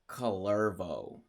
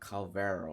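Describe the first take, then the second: First: The R comes before the V. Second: The R comes after the V. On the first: The speaker calls it right. "It's Calervo" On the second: The speaker calls it wrong. "not Calvero"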